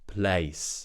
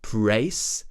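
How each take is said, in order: First: The sound after the P is an L. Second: The sound after the P is an R. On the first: The speaker calls it right. "Make sure that the tip of your tongue touches the top of your mouth" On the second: The speaker calls it wrong. "where you pronounce that L as an R"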